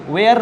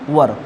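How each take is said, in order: First: It has a long 'air' vowel, like 'where'. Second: It has a short 'ur' vowel, like 'wur'. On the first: The speaker calls it wrong. "बहुत सारे लोग इसको वेयर बोलते हैं, गलत बात है" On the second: The speaker calls it right. "इसको बोलते बेटा वर"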